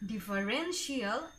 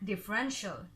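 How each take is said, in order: First: The ending is two syllables, like 'shee-al'. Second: The ending is one short 'shul' syllable. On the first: The speaker calls it wrong. "It is not differential" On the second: The speaker calls it right. "it's differential"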